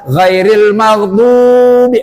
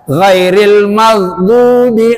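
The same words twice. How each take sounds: First: The long vowel is held much too long. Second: The long vowel is held for two beats. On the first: The speaker calls it wrong. "jangan ... kelebihan" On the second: The speaker calls it right. "dua dua ketuk Pak"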